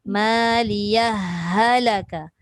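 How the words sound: The words run together with the h sounds merged. "Dia menekan ha pada ha"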